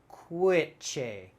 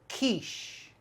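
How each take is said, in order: First: The word does not end in a 'sh' sound. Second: The word starts with K and ends in 'sh'. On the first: The speaker calls it wrong. "I might use my phonics and sound it out" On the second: The speaker calls it right. "Strong K in the beginning, S H at the end"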